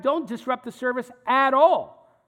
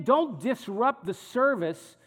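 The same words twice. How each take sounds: First: "at all" punched louder at the end; stress on AT ALL. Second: Said in the usual way. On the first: Shown as a demonstration. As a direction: restate it, landing hard on "at all". Restated, widened with at all.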